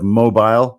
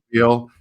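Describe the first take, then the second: First: It is said the usual way for the word. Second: It is said the local way for the city. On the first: This is the ordinary word, not the city's name. The speaker calls it wrong. "instead of mobile" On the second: This is how the city's name is said there. The speaker calls it right. "Learned how to say Mobile instead"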